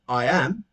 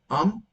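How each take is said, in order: First: It is said as two separate full words. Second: It is contracted into one syllable, "I'm".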